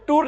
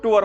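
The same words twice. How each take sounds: First: टूर said as one clipped syllable, "toor"; टूर in one short syllable, the wrong way; wrong pronunciation. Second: टूर said as two syllables, "tu-ar"; correct pronunciation. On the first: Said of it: "टूर नहीं बोलना भाई". (टूर को एक ही छोटे अक्षर में, गलत तरीके से) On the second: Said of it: "क्या बोलना है आपने उसको?". (टूर को दो अक्षरों में, "टू-अर") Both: Shown as a demonstration.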